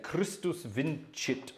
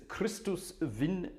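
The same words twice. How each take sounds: First: Vincit said with a soft "ch", vin-chit, slowly; Italian Latin pronunciation. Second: Vincit said with "ts", vin-tsit, slowly; German Latin pronunciation. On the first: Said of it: "Let's do Italian Latin tonight". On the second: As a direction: say vincit the German way, "VINT-sit". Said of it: "I say vincit because that's how they would say it in Germany". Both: Shown as a demonstration.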